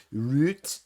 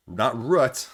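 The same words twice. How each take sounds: First: "Root" said with a long oo, like boot; "Root" stretched and rising, rhyming with boot; Midwestern Root. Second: Root said as "rout", not "root"; "Root" with the vowel of "out"; corrected pronunciation. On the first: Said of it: "my Midwestern Michigan accent". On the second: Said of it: "as you guys correct me". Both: Shown as a demonstration.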